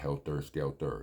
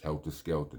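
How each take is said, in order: First: Both words end with an 'er' sound. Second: Both words end with an open 'ah' sound. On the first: The speaker calls it wrong. "not helter skelter" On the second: The speaker calls it right. "It's an A H at the end of helter and skelter"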